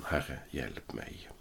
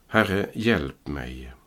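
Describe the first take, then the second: First: Much softer, slow "Herre, hjälp mig", almost breathed out; retelling Peter sinking, a hushed understated cry; hushed plea. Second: Slow, drawn-out "Herre, hjälp mig" as a mild read plea; cry for help. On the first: Retold or imitated. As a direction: let "Herre, hjälp mig" sink away, quiet and slow. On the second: Acted. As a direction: stretch out "Herre, hjälp mig" slowly and deliberately. Peter cries out while sinking.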